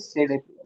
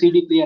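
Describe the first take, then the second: First: The D is said as 'day'. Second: The D is said as 'dee'. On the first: "but pronounce कैसे करेंगे" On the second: "कहते तो C डी player है"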